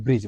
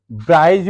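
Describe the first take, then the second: First: "ब्रिज" with short i and silent d; correct pronunciation. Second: "ब्राइज" with an "ai" glide, like "bryj"; mistaken pronunciation. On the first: Teacher giving students the proper bridge, "ब्रिज" with silent d. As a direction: say "ब्रिज" softly, short vowel, no d. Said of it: "शुद्ध इसका pronunciation जो होता है". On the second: Teacher quoting a common misreading of bridge, "ब्राइज" with ai glide. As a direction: say "ब्राइज" with the vowel of "eye". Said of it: "ब्राइज बोल देते हैं". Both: Shown as a demonstration.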